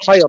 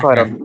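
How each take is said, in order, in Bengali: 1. শব্দটি র ধ্বনিতে শেষ হয়। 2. শব্দটি ন ধ্বনিতে শেষ হয়।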